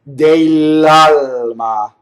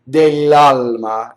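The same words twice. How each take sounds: First: It is said slowly with the L sounds exaggerated. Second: It is said quickly at a normal pace. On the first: "Now that's exaggerated" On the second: "is how you say it fast"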